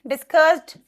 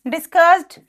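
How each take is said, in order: Both takes have the same delivery.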